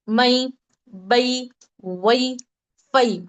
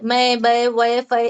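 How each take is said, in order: First: The syllables are read with Arabic pronunciation. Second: The syllables are read with Urdu pronunciation. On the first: "इसको अरबी में कैसा पढ़ेंगे?" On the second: "अगर हम इसे उर्दू में पढ़ रहे हैं"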